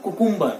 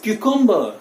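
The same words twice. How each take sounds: First: "cucumber" as koo-KOOM-ber; wrong pronunciation. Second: "cucumber" as KYOO-kum-buh; correct pronunciation. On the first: Teacher rejecting the habit, cucumber as koo-KOOM-ber. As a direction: say cucumber with OO vowels. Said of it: "it is not cucumber". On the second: Teacher summing up, cucumber said KYOO-kum-buh. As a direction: begin cucumber with KYOO, high. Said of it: "It is cucumber". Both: Shown as a demonstration.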